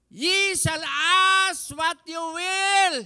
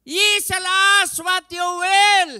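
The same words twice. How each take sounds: First: Loud, high, slow proclamation; preacher declaring the promise; preaching. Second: Very loud, high, slow shout; preacher shouting the verse; preaching at full force. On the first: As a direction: declare it slowly. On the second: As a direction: shout the promise. Repeated louder. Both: Acted.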